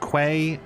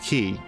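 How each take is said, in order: First: The word sounds like 'kway'. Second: The word sounds like 'key'. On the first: "some people pronounce it as, as quay" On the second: "Q U A Y is pronounced key"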